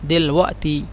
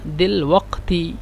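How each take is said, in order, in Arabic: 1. الحرف الأوسط هو همزة. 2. الحرف الأوسط هو صوت قاف كامل. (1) "عند النطق ... قاف يعني همزة" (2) "عند الكتابة"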